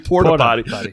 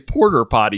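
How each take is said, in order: First: The first word is said as plain porta. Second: The first word sounds like the name Porter. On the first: The speaker calls it right. "You don't say porta potty" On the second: The speaker calls it wrong. "you say porter potty"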